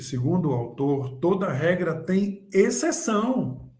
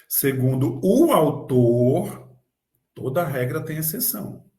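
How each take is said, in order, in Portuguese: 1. A ênfase está na palavra exceção. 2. A ênfase está na palavra autor. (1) "Agora eu vou dar ênfase na exceção" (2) "Digamos que eu quero dar ênfase no autor"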